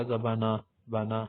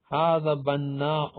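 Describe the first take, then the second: First: بنا quick as "bana", single n; colloquial Arabic pronunciation. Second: بناء slowly with held double n; standard Arabic pronunciation. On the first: Teacher quoting everyday Arabic speakers, بنا as quick "bana". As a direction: run through بنا with no final stop. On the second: Teacher presenting the word for builder, بناء slow and full. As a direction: stretch بناء out, glottal stop after long a. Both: Shown as a demonstration. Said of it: "عام عربی میں لوگ بولتے ہیں".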